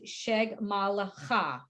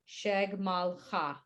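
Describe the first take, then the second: First: A vowel is sounded between the l and ch. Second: No vowel is sounded between the l and ch. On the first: The speaker calls it wrong. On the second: The speaker calls it right.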